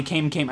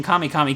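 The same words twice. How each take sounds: First: Kame said KAYM, quickly; one-syllable Kame. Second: Kame said KAH-may, quickly; two-syllable Kame. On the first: Player switching between two names, Kame as KAYM. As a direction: say each Kame like "came". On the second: Player switching between two names, Kame as KAH-may. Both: Shown as a demonstration. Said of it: "I would switch back and forth".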